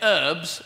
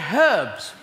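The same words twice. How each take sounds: First: The word starts without an h sound. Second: The word starts with an h sound. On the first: The speaker calls it wrong. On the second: The speaker calls it right.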